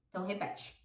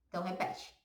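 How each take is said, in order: The two takes are said the same way.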